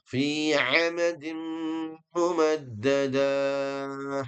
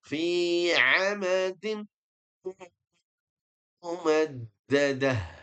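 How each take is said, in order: First: The final syllable is drawn out long. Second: The final syllable is short, ending in a stopped h. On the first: The speaker calls it wrong. "ini kan salah ini, nggak ada panjangnya di sini" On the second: The speaker calls it right. "akhir ayat ini dibacanya pendek"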